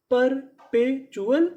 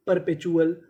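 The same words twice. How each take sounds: First: perpetual stretched slowly, rising at the end; very slow syllable by syllable. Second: Said in the usual way. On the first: Shown as a demonstration. Teacher to students, sounding out the word slowly. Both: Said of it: "तो पूरी meaning क्या बनी?".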